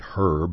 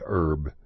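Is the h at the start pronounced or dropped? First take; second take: pronounced; dropped. First: The h at the start is pronounced. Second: The h at the start is dropped.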